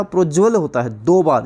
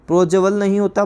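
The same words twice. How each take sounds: First: प्रोज्वल with the ज doubled; प्रोज्वल with a doubled ज, the right form; correct form. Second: प्रोज्वल said as wrong, pro-jə-vəl; प्रोज्वल with the wrong vowel between ज and व; wrong form. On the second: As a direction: say प्रोज्वल as the mistake to avoid. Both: Shown as a demonstration.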